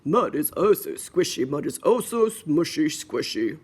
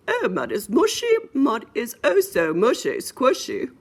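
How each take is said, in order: First: Lightly voiced daddy pig, a bit low; a hint of a storybook dad. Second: Higher, louder mommy pig voice. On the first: Daddy pig delighting in the muddy puddle, lightly voiced dad. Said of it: "said the daddy". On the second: Acted. Mommy pig delighting in the mud, higher mommy voice. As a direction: play the storybook mom, pitched up. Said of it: "Said the mommy".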